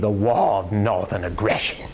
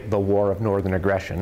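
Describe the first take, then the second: First: It is said with attitude and a Southern twang. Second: It is said plainly in a New England accent. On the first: The speaker calls it right. "with some attitude and with some twang" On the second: The speaker calls it wrong. "That's far too New England"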